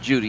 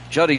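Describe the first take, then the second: First: The first vowel is a long 'oo' sound. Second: The first vowel is a short 'uh' sound. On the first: It sounds like a girl's name. The speaker calls it wrong. "Not Judy, that's a girl's name" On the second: It is how the player himself says his name. The speaker calls it right. "I believe he pronounces that Juddy"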